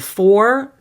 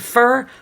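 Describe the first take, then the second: First: The vowel is full, like 'or'. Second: The vowel is reduced, like 'fur'. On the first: "here it's going to be on for" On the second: "turning it to fur"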